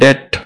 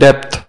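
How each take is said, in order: First: The word ends in a plain T, no B. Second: A B or P sound comes before the end. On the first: The speaker calls it right. "डेट, बी silent है" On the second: The speaker calls it wrong. "लोग पढ़ते इसे डेप्थ"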